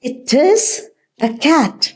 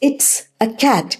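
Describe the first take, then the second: First: 'It is' is said as two full words. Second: 'It is' is shortened into one syllable.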